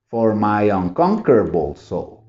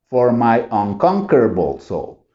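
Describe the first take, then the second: Both takes have the same delivery.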